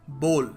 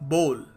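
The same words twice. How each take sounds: No difference in how they are said.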